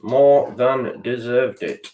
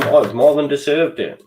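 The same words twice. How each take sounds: First: More drawn out, each word slow and weighted; slow emphatic repeat. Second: Said in the usual way. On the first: Shown as a demonstration. Fan conceding the rival earned the win, slow and heavy. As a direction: let it sink in slowly.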